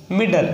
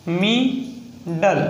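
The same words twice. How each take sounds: First: Said in the usual way. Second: middle very slow, split into "mi... dal"; sounding out. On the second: Shown as a demonstration. Teacher breaking an example word down for learners, slow syllables. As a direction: stretch both syllables of middle, pausing between.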